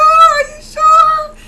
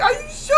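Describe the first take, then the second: First: "Are you sure?" shouted very high and much louder, drawn out slowly; desperate shout. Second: High, tearful cry of fear; crying panic. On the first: Pleading with the scheduler again, in a drawn-out terrified shout. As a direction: wail "Are you sure?" long and loud in terror. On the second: Begging the scheduler to promise she will not die, crying. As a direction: plead "Are you sure?" high, crying and urgent. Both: Retold or imitated. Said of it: "I'm like".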